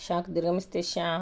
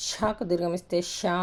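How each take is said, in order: Both takes have the same delivery.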